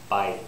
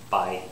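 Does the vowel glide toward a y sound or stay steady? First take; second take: glide; glide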